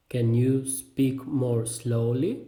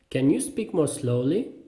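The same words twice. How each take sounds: First: Very slow question, words spaced out; slow repeat. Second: Said in the usual way. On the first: Shown as a demonstration. Teacher repeats a learner's useful question, slowly. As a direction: ask it word by word. Phrase drill, slower repeat.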